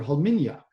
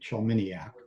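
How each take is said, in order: First: The name begins with a breathy 'h' sound. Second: The name is said with a 'niak' ending. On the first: This is how a native speaker says it. The speaker calls it right. "which is actually the way that you say it" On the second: Most of the family says it this way. The speaker calls it wrong. "two thirds of the family pronounces it that way"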